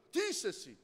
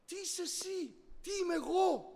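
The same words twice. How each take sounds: First: Said in the usual way. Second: "Τι είσαι εσύ; searching question. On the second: Shown as a demonstration. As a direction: ask it again, higher and hushed, stressing "εσύ".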